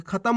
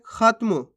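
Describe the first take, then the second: First: खत्म opened out as kha-tam; full vowel after त in खत्म; full-letter misreading. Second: खत्म as khat-mu; त closed straight onto म in खत्म; half-letter pronunciation. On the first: Teacher shows the mistake, खत्म with full ता. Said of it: "इस प्रकार से". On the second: Teacher shows how we read it, खत्म with half त. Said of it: "अपन पढ़ कैसे रहे". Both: Shown as a demonstration.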